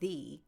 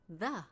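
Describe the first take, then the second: First: The vowel is a full, long 'ee' sound. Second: The vowel is a short, weak 'uh' sound. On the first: "You can also say the" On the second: "The is similar to a because when we pronounce it in English, everyday speakers, we say the"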